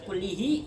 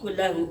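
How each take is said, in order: First: The vowel after the double l is i. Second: The vowel after the double l is a. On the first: "Nggak boleh dibaca kullihi" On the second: "nggak boleh"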